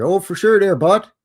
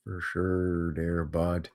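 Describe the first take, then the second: First: Loud, high hoser twang; hammed-up Canadian, louder and higher; Canadian accent. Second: Slow, low, soft Canadian drawl; quiet, slow Canadian echo; soft Canadian accent. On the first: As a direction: play up a Canadian buddy. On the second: Pretend. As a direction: mutter it like a laid-back Canadian. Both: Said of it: "Bunch of Canadians up in here".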